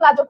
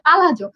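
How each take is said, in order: First: The word is said with two syllables. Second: The word is said with three syllables. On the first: The speaker calls it wrong. "আমরা এতদিন প্লাজো প্লাজো করতাম" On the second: The speaker calls it right. "এটার উচ্চারণ আসলে পালাজো"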